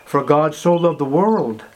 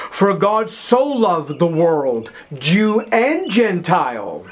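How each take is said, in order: First: Said in the usual way. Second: Slow, weighty, every word set apart; slow solemn reading. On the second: Acted. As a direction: lay the verse down slowly. Famous verse read slowly.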